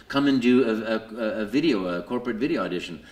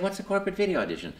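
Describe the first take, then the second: First: Said in the usual way. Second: Puzzled. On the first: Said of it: "somebody called me up and said". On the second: Retold or imitated. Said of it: "I said".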